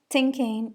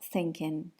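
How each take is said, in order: First: The first th sound is replaced by another sound. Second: The word begins with a standard th sound. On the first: The speaker calls it wrong. "substitution of sounds" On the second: The speaker calls it right. "instead of"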